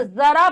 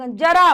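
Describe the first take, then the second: First: जरा with a buzzed z, as 'zara'; z sound. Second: जरा with a plain j, as in jar; plain j sound. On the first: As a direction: turn the j of जरा into z. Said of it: "थोड़ा सा अंतर है इनमें". (जरा में नुक्ते वाला ज़) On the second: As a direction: say जरा with a hard j, no buzz. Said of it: "उच्चारण में भी हल्का सा अंतर". (जरा में सादा ज) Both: Shown as a demonstration.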